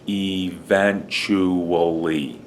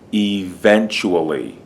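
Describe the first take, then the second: First: The word is said slowly and carefully. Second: The word is said quickly and smoothly.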